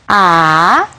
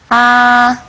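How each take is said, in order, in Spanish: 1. Se dice con el tercer tono. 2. Se mantiene en un tono alto y nivelado. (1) "el tercer tono" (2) "El primer tono es el más alto"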